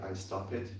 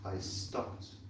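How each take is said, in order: First: The ending is pronounced as an extra syllable. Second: The ending is pronounced as a single t sound. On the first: The speaker calls it wrong. "we don't say I stop it" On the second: The speaker calls it right. "We would say I stopped, like this"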